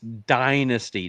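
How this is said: The first syllable sounds like 'die'. The speaker calls it right. "We're in America right now. It's dynasty"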